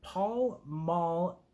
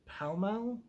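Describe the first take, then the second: First: "Pall Mall" said as "pawl mawl"; pron like paul. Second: "Pall Mall" said as "pal mal", rising; pron like pal. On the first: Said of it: "but Pall Mall?". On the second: Reading a poem, she tries the other way to say it. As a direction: rhyme "Pall" with "pal", unsure. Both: Shown as a demonstration.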